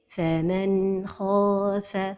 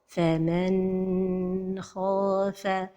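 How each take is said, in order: First: The n flows smoothly without bounce or break. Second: The n sound is held too long. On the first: The speaker calls it right. "la prononciation correcte" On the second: The speaker calls it wrong. "c'est de prolonger son temps"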